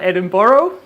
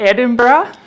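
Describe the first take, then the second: First: It uses another outsider's pronunciation of the name. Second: It uses the locals' pronunciation of the name. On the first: The speaker calls it wrong. "or uh, Edinburgh" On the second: The speaker calls it right. "we pronounce it Edinburgh, right?"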